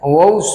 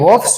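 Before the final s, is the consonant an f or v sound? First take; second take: v; f. First: The consonant before the final s is v. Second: The consonant before the final s is f. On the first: The speaker calls it right. "વોવ્સ બોલાય" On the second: The speaker calls it wrong. "અરે એમ ના બોલાય"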